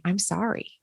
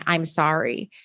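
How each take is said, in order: First: Soft, quiet and sincere; face-to-face apology. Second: Said in the usual way. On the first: Shown as a demonstration. Apologizing to someone face to face, softly. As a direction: say it softly, looking into their eyes. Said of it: "looking them in the eyes and saying". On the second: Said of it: "difference between typing".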